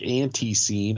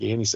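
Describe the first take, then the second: First: It is said the Southern way. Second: It is said the Midwestern way.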